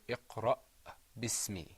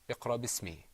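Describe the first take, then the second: First: The glottal stop after iqra is clearly sounded. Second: The glottal stop after iqra is left out. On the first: The speaker calls it right. "but we want to hear you say" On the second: The speaker calls it wrong. "Sometimes there's a tendency just to skip that letter and say"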